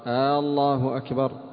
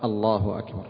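First: The opening vowel is lengthened into a question hamza. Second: The opening vowel is short with no question hamza. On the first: It sounds like asking whether God is greatest. The speaker calls it wrong. "أخطأت" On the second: It states that God is greatest. The speaker calls it right. "قل الله أكبر"

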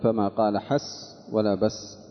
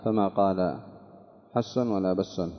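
First: The words end without an added n sound. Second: The words end with an added n sound.

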